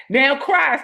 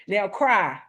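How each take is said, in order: First: Higher, louder order to cry; commanding older sister. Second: Said in the usual way. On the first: Retold or imitated. Big sister ordering her crying brother to let it out, sharp command. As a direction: stand over him and command it. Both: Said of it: "standing over top of me".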